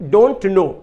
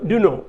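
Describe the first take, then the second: First: It is said in full, 'don't know'. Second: It is reduced to 'du no'. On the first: "उसी तरह डोंट नो" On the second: "तो डू नो"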